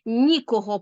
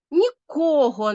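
First: "Нікого" stressed on НІ; stress on first syllable. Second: "Нікого" stressed on КО, drawn out slowly; stress on second syllable. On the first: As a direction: hit the opening syllable of "Нікого". (наголос у слові «Нікого» на перший склад: НІ) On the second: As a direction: lean on the middle syllable of "Нікого". (наголос у слові «Нікого» на другий склад: КО) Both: Shown as a demonstration. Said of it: "наголос вирішує все".

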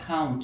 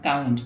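First: "count" with a puff after the c; aspirated k. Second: "count" with no puff after the c; unaspirated c opening "count". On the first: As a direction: say "count" as "khount". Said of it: "count, not count". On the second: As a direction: say "count" with a hard, dry k. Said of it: "not count". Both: Shown as a demonstration.

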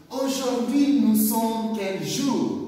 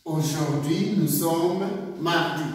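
First: "Aujourd'hui" pitched much higher, then a rising question; high question tune. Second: Said in the usual way. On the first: Shown as a demonstration. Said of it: "Répétez avec moi". ("Aujourd'hui" beaucoup plus aigu, ton de question) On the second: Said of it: "you will answer like this".

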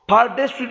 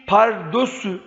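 First: "Pardesü" with e in the middle; wrong pronunciation. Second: Said in the usual way. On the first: Shown as a demonstration. Teacher gives students the wrong "Pardesü". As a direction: say "Pardesü" with a plain e, not ö. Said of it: "Pardesü değil".

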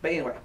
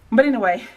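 First: Said in the usual way. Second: Panting, louder; out of breath. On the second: Real, not acted. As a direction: still catching breath. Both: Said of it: "excuse me for breathing so hard".

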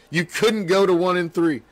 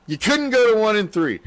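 First: Said in the usual way. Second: Emphatic repeat. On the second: Real, not acted.

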